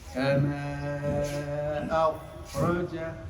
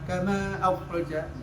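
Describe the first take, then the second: First: It is said slowly with a long airflow. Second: It is said quickly with a short airflow. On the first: "kalau pelan ya au, panjang ya" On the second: "Kalau cepat"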